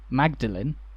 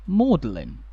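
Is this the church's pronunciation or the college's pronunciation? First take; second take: church; college. First: It is pronounced the older, church way. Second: It is pronounced the later, college way. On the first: This is the original pronunciation. "The original way to say it" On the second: This had become the usual pronunciation when the college was founded. "the common pronunciation had become Magdalen"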